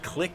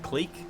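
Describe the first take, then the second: First: The word has a short vowel, like 'click'. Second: The word has a long vowel, like 'seek'. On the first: This is the newer common pronunciation. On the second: This is the original pronunciation.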